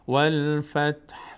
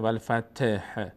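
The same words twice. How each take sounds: First: The t stays vowelless, ending in faint h. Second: The t is voiced with a vowel. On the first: The speaker calls it right. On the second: The speaker calls it wrong. "ت را حرکت نشه، والفتح نه"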